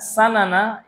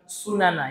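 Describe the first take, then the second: First: The first vowel is an open 'a' sound. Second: The first vowel is a rounded 'u' sound. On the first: The speaker calls it right. "Sanana ini bukan sunana ya" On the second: The speaker calls it wrong. "bukan sunana"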